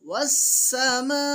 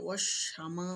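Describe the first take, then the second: First: The consonant is pronounced as a thin s. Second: The consonant is pronounced as sh. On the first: The speaker calls it right. "পাতলা। ওয়াসসামা পরিষ্কার।" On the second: The speaker calls it wrong. "ওয়াশামা অনেকে বলে ফেলে, ওয়াশামা নয়"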